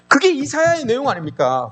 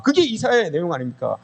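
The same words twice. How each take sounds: First: High emphatic question. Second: Said in the usual way. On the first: Shown as a demonstration.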